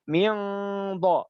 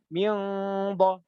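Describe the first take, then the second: The two takes are said the same way.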